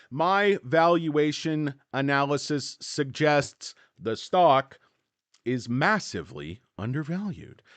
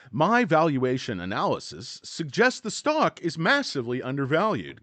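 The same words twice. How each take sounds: First: Slow, halting first read. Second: Punchy reread, STOCK stressed; emphatic reread. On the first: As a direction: read it slowly, word by word. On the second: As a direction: reread it with conviction, hit stock. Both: Shown as a demonstration. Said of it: "Let me reread that sentence".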